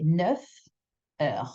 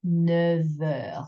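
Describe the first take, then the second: First: NEUF, a clear gap, then HEURES; words separated. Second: NEUF HEURES run together with a v sound; linked with liaison. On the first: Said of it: "If you separate it". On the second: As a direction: turn the f of neuf into v, gliding into heures. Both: Shown as a demonstration.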